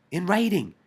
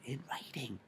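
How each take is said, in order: First: WRITING punched high and loud; stress on WRITING. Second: Said in the usual way. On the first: Real, not acted. Driving home the commission's written statement, stress on WRITING. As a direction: hit "writing" hard, pitched up. Repeats words to hammer them home.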